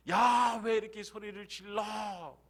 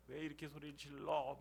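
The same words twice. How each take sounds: First: High, loud scolding outburst. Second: Softer echo of the scolding; subdued scolding. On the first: Preacher acts the crowd rebuking Bartimaeus, loud scolding. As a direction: burst out with an acted indignant yell. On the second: Preacher repeats the crowd's rebuke to Bartimaeus, subdued scolding. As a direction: grumble the rebuke under the breath. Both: Acted. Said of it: "꾸짖어요".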